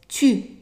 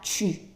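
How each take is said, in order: First: The syllable begins with a crisp t sound. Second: The syllable begins with a ch sound. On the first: The speaker calls it right. "It's pronounced as a T" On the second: The speaker calls it wrong. "not chu"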